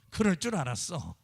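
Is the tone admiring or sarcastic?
sarcastic. It is said in a scornful, sarcastic tone. The listener is being mocked. The speaker calls it wrong. "비꼬는 말이잖아요"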